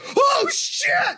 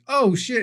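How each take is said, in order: First: It is said in a terrified, panicked voice. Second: It is said in a mild, ordinary voice. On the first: Someone is witnessing utter carnage and chaos. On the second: Something mildly bad has happened.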